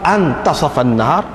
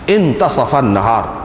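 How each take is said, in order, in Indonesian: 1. Kata pertama dimulai dengan vokal 'a'. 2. Kata pertama dimulai dengan vokal 'i'. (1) "hamzah di situ dikira sebagai hamzah istifham" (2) "kalau kita baca dengan baris bawah hamzah tu"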